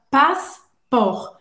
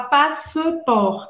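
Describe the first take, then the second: First: The middle E vowel is silent. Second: The middle E vowel is pronounced. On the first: The speaker calls it right. "a gente fala passport. É como se esse E não existisse" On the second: The speaker calls it wrong. "a gente também não fala passeport"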